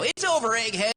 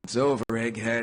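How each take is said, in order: First: It is said in a higher voice. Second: It is said in a much deeper voice.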